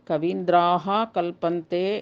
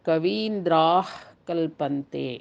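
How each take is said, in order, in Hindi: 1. पहला शब्द पूरे 'ha' अक्षर से समाप्त होता है। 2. पहला शब्द एक संक्षिप्त, फूँक वाले h से समाप्त होता है। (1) "ರೂಪ ಒಂದು" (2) "ಈ ಜಿಹ್ವಾಮೂಲೀಯವು ಹಕಾರದ ಶಬ್ದವನ್ನು ಹೋಲುತ್ತದೆ"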